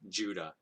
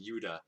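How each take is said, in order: First: The name begins with a J sound. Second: The name begins with a Y sound. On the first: This is the familiar English form of the name. "More anglicized, like Judah" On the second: This is an attempt at a form closer to Hebrew. "I'm not gonna go like Yuda"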